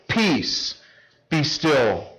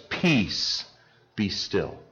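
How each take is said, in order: First: Said in the usual way. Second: Quiet, settled command fading away; calm command. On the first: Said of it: "Two commands". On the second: Acted. Jesus rebuking the storm on the water, calm quiet command. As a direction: speak it like a calm master stilling the sea. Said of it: "He says".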